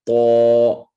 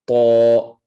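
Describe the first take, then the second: No difference in how they are said.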